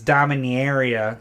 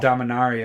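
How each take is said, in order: First: The name is said with a Minnesotan-like pronunciation. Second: The name is said with a standard pronunciation. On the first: The speaker calls it wrong. "kind of like Minnesotan" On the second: The speaker calls it right. "the proper way to say it"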